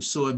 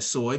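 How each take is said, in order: First: It carries the tone of the word for bad luck. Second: It carries the tone of the word for beautiful. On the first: The word means bad luck. "Suay means bad luck" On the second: The word means beautiful. "suay means beautiful"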